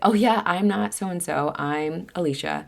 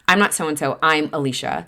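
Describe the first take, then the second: First: It sounds light and friendly. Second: It sounds harsh and irritated.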